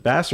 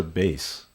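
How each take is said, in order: First: "Bass" like the fish; Bass with short A. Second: "Bass" like "base"; Bass with long A. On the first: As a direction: say "Bass" to rhyme with "class". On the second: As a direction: say "Bass" to rhyme with "face". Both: Shown as a demonstration. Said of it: "Is it Bass or Bass?".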